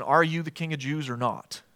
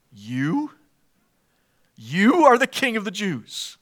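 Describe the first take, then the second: First: Said in the usual way. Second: "You?" set apart as its own question, then "You" leaned on again to open the sentence; stress on you. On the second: Shown as a demonstration. Pilate doubting Jesus, stressing "You". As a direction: hit "You" each time, incredulous. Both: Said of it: "there's emphasis on the word you".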